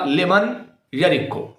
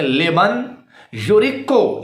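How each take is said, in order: First: "یرکو" with ya instead of yu; imitated misreading. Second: "یورکو" with a yu first syllable; correct reading. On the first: Showing viewers how the opponent misread it, imitated misreading. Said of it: "اس بندے نے اسے کیا پڑھ دیا". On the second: Shown as a demonstration. Showing viewers the hadith's true ending, correct reading. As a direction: say "لمن یورکو" carefully, yu-riq-qu. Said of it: "آخری حصہ میں موجود ہے".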